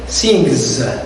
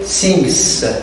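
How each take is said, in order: First: The word ends with a buzzing Z sound. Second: The word ends with a hissing S sound. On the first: The speaker calls it right. "You say sings. So it's written as a letter and it is pronounced as a sound Z" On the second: The speaker calls it wrong. "You do not say sings. No, it's not correct"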